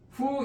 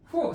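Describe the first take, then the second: First: The syllable is said on a high level tone. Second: The syllable is said on a sharply falling tone. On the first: "후 일생이죠" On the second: "후 사성으로"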